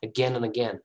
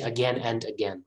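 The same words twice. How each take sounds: First: The word 'and' is reduced to a short 'an'. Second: The word 'and' is said fully, with its d. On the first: The speaker calls it right. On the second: The speaker calls it wrong.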